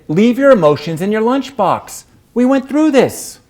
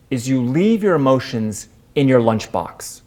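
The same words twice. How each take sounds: First: Firm scolding reminder. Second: Said in the usual way. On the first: Retold or imitated. Jane scolding the teary narrator, higher and louder. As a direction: Leave your emotions, pitched up and louder, chiding. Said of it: "Jane said". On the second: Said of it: "she said".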